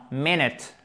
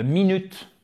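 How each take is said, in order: First: MINUTE stressed on the first syllable, two short I sounds; English MINUTE, short I. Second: MINUTE as the French word, with a French u; French-style MINUTE. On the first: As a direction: say MINUTE slowly as English "MIN-it". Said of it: "Ça, c'est un I court". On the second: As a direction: say MINUTE the French way, "mee-nüt". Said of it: "vous auriez tendance, peut-être, vous me direz, à dire". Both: Shown as a demonstration.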